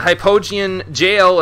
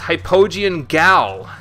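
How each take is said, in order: First: The second word starts with a j sound. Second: The second word starts with a hard g. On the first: The speaker calls it right. "It's pronounced jail" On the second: The speaker calls it wrong. "I don't think I'm saying it correctly"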